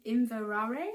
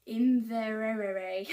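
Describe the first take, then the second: First: Inverare tried again with a rise, slow and louder; questioning retry. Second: Inverare drawn out very slowly and loud, syllables stretched; unsure pronunciation. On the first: Vlogger laughing at her own attempt, in an unsure, rising retry. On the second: Vlogger trying a Scottish yarn name, in a slow, stretched sound-out. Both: Shown as a demonstration.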